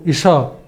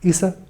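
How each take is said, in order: First: The middle consonant is sh. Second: The middle consonant is a plain s. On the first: The speaker calls it right. "قصده إيشا" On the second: The speaker calls it wrong. "الكلمة التانية كلمة إيسا"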